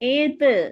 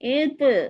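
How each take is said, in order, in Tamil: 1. இறுதி மெய் துள்ளும் எதிரொலியுடன் வெளியேறும். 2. இறுதி மெய் துள்ளும் எதிரொலியுடன் வெளியேறும்.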